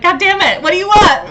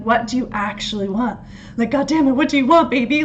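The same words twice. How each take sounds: First: High, loud, passionate movie-lover plea; Noah from the Notebook. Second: Said in the usual way. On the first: Retold or imitated. Imitating Noah pleading with his love, high and loud. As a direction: belt it like a desperate romantic lead. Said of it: "Like, Noah from the, from the Notebook". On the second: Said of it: "coming back into your heart and being like".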